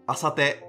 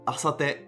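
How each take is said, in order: Both takes have the same delivery.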